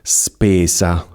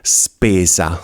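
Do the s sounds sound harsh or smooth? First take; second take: smooth; harsh. First: Boosted bass and moderate highs give softer s sounds. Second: The high frequencies are boosted, giving hissing s sounds. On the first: The speaker calls it right. "non dovrebbe essere fastidioso" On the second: The speaker calls it wrong. "ho alzato al massimo la frequenza alta ... sembra un serpente ... un po' fastidioso"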